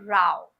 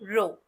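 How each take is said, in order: First: The vowel sounds like 'ow'. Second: The vowel sounds like 'oh'. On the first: It means a quarrel. "उसे हम कहते हैं राव" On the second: It means a line of things. "उसे हम कहते हैं रो"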